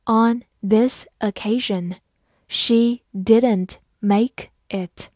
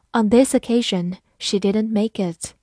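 First: Slow, even reading pace; careful slow model reading. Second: Said in the usual way. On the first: Shown as a demonstration. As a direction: read it slowly word by word. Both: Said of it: "好，慢慢来读。".

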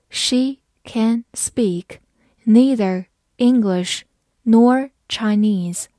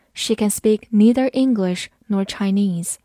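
First: Very slow, each chunk separate; slow reading. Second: Said in the usual way. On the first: Shown as a demonstration. Teacher reads slowly for learners, slow and chunked. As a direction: spell it out slowly in pieces. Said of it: "好，慢慢来读". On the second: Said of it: "慢慢来读".

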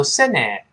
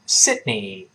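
First: "Sydney" ending wrongly in an open EH; "Sydney" with no held D and an EH ending; mispronounced Sydney. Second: "Sydney" with a tiny halt after Syd; "Sydney", hold the D, then release into NEE; stopped D. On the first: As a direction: demonstrate the error "Sen-neh" for "Sydney". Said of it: "不要读Sydney". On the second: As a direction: model "Sydney" with unreleased D, ending in EE. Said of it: "中间那个的做一个顿挫". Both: Shown as a demonstration.

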